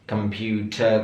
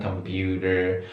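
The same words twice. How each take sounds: First: "computer" with a crisp T, no R; British T. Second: "computer" with a flapped D and R at the end; American flap T. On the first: Teacher showing British computer, crisp. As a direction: clear T in "computer". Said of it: "computer kalau British". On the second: Teacher showing American computer, flapped. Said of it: "kalau American computer". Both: Shown as a demonstration.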